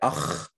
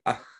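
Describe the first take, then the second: First: The guttural sound is pronounced very strongly. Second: The guttural sound is pronounced lightly and weakly. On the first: Some speakers say it this way. "Some people pronounce them really strongly" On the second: Other speakers say it this way. "some people are just like"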